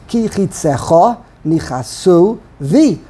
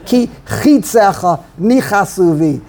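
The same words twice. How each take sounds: First: Slow, chitzeCHA NichaSU, weight on each final syllable; stress on word ends. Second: Early stress, CHI in chitzecha and NI in nichasu; slow, punch the first syllable of chitzecha and of nichasu. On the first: Teacher showing a reading without trop, final-syllable stress on chitzecha and Nichasu. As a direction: land on the end of chitzecha and of Nichasu. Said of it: "And you would say". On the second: Teacher showing what sounds funny to him, early stress on chitzecha and nichasu. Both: Shown as a demonstration.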